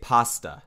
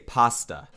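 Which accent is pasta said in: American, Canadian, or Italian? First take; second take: Italian; Italian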